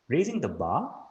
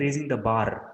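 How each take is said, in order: First: The final r is soft, almost silent. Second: The final r is pronounced sharply. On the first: The speaker calls it right. "soft r sound at the end" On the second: The speaker calls it wrong. "Don't say raising the bar. Okay, don't make the sharp r sound"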